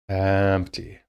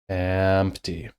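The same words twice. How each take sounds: First: The word starts lightly, with an easy flow. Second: The same.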